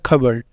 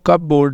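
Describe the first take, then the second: First: The p is silent and the word is shortened. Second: The p is sounded and board is fully pronounced. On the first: The speaker calls it right. "यहाँ पे पी को नहीं बोलेंगे" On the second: The speaker calls it wrong. "इसको कब बोर्ड नहीं बोलना"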